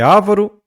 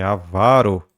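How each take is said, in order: First: "ávaro" loud on the first A; "ávaro" as Á-va-ro, loudly; wrong first-syllable stress. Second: "avaro" slowly, stretched on VA; "avaro" falling, stressed on the middle syllable; correct middle-syllable stress. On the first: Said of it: "É avaro". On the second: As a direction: stretch a-VA-ro as the answer. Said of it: "paroxítona terminada em O". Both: Shown as a demonstration.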